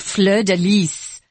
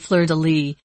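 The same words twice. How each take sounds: First: The final S of lis is pronounced. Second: The final S of lis is silent. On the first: This is how it is said in France. "They put the S on it" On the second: This is how it is said in America. "we've chosen not to pronounce the S"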